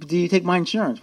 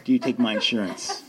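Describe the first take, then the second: First: Louder, pushing the question again; insistent repeat. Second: Slipping a laugh into a sheepish question; sheepish laughing ask. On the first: Repeats question, ignoring theirs. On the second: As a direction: ask it half-laughing, a bit embarrassed. Asking rehab about insurance. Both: Retold or imitated.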